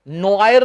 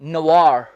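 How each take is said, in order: First: It is said 'no-ayer' with no 'w' sound. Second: It is said 'nwar' with a 'w' sound. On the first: The speaker calls it wrong. "नोआयर नहीं" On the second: The speaker calls it right. "इसमें व की आवाज आएगी"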